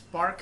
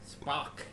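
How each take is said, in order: First: The vowel is an open ah with r. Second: The vowel sounds like o, as Spock.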